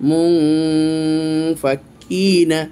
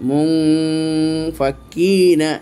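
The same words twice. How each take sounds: No difference in how they are said.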